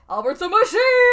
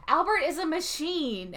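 First: High, loud, laughing shout of the line; over-the-top shout. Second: Said in the usual way. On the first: Retold or imitated. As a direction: ham it up, yelling it at the crowd. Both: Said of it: "but in that voice".

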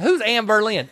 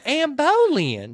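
First: "Boleyn" reduced to "ber-lin"; slurred name. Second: "Boleyn" stretched high as "boh-LEEN"; drawn-out name. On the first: Retelling her asking about the name, "Boleyn" as "ber-lin". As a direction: say "Boleyn" with a weak first syllable, "ber-LIN". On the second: Retelling the answer to her question, high slow "boh-leen" for "Boleyn". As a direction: slowly sound out "Boleyn" with a full "boh". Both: Retold or imitated.

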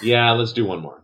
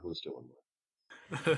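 First: Said in the usual way. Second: Softer, slow repeat; slow quiet echo. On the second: Real, not acted. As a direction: drop it low and slow. GM repeats the call.

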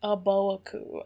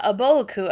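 First: "Aboaku" slowly spelled out in sound, a-bo-a-ku; slow careful "Aboaku". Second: Said in the usual way. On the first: Shown as a demonstration. Puzzling over the name's vowels, slow careful "Aboaku". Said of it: "not nearly enough vowels in this name". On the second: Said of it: "Oh, yeah".

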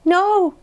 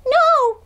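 First: High little answer; high-pitched little frog; small Frog's voice. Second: Very high squeaked answer; extremely high, tiny creature voice; tiny peep. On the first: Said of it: "said Frog". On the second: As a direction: peep it like a shrinking little frog. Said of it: "peeped Frog". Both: A narrator's reading.

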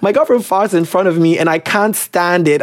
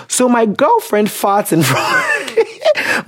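First: Said in the usual way. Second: Real laugh cuts off the sentence; breaking into laughter. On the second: Real, not acted. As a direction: start reading high and slow, then crack up. Cracks up reading the letter.

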